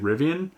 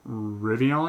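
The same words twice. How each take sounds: First: The last syllable sounds like 'an'. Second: The last syllable sounds like 'on'. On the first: The speaker calls it right. "it's actually Rivian" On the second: The speaker calls it wrong. "They called me out on the way I'm saying Rivian"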